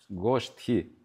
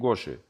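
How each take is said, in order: First: The middle consonants form an 'sht' cluster. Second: The middle consonant is a plain 'sh' sound. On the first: The speaker calls it right. "произносите правильно слово Иштагоштхи" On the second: The speaker calls it wrong. "не Гоши"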